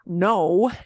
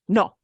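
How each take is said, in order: First: The vowel is long and glides. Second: The vowel is short and clipped. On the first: The speaker calls it wrong. "it's not no" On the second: The speaker calls it right. "O is shorter. It's cut"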